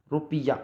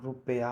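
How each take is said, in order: First: रुपया said "rupiya", with an i; "piya" ending. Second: Said in the usual way. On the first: Shown as a demonstration. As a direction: put an ee in the middle of रुपया. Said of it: "नहीं होगा". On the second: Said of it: "होगा".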